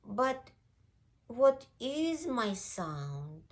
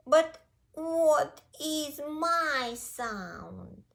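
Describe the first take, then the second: First: Higher, slow, wondering question; small puppy voice, drawn out; puzzled puppy. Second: High, loud, very drawn-out wail; high puppy lament, stretched out; distressed puppy. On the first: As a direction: wonder it aloud like a lost little puppy. Puppy left puzzled, alone. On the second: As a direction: wail the question slowly like a lost puppy. Puppy puzzled again, left alone. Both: Acted.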